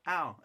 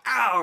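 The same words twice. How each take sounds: First: Calm understated ow; deadpan ow. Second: Loud yelp of pain; loud pained yell. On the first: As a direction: say ow with no real reaction. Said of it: "He was just like". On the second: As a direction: shout ow like it really hurt. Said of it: "he wasn't like". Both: Retold or imitated.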